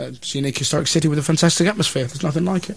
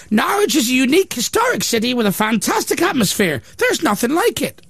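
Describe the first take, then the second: First: Rattled off fast like a rehearsed line; mock man in the street. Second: Pitched well up, proud and prim; high mock quote voice. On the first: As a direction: parrot the slogan quickly. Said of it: "what do you think of Norwich". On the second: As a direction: read it like a smug local booster.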